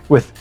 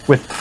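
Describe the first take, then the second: Both takes have the same delivery.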